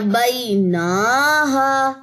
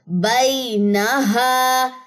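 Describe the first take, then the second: First: The vowel after the n is drawn out long. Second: The vowel after the n is kept short. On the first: The speaker calls it wrong. "अब इसको ऐसे नहीं पढ़ना ... ये गलत हो जाएगा" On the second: The speaker calls it right. "नून की जबर लंबी नहीं करनी"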